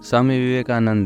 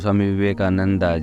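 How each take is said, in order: First: The name ends without a final vowel sound. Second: The name ends with an added final vowel sound.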